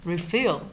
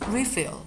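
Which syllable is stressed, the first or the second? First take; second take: second; first. First: The stress is on the second syllable, fill. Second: The stress is on the first syllable, re. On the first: It is a verb. "咱们也可以把它发成refill，但这个时候是不动词啊" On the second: It is a noun. "名词对不对？"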